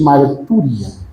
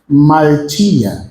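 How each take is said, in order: First: The stressed vowel is an oo sound. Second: The stressed vowel is an ee sound. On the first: "ou você pode chamar também de martúria" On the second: "o upsilon grego tem som de i"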